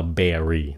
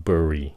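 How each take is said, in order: First: "berry" with a full e, like the fruit; wrong ending. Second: "berry" reduced to buh-ree; correct ending. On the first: Teacher shows the ending to avoid, fruit-like "berry". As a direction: say "berry" as BEH-ree. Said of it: "không phải là berry". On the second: Teacher corrects the ending, "berry" said as bur-ee. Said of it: "nó là berry". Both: Shown as a demonstration.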